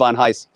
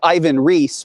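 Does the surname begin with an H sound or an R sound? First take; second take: H sound; R sound. First: The surname begins with an H sound. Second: The surname begins with an R sound. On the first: This is how the person himself says the name. "by his own pronunciation, it's Ivan Heiss" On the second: This is how most people say the name. "people know him as Ivan Reis"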